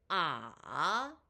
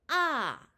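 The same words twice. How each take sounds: First: The pitch dips low, then rises. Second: The pitch falls sharply from high.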